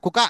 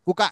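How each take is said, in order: The two takes are said the same way.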